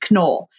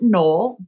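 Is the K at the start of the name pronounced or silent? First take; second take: pronounced; silent. First: The initial K is pronounced hard. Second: The initial K is silent. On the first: The speaker calls it right. "you actually pronounce the hard K" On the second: The speaker calls it wrong. "many people will pronounce it Knoll"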